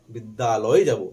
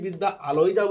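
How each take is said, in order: First: Said in the usual way. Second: "বিদ্যা আলয়ে" said as two separate words; split pronunciation. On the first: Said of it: "শুনতে ভালোবাসি". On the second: Shown as a demonstration. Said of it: "এই কথাটা বলি না". ("বিদ্যা আলয়ে" ভেঙে উচ্চারণ)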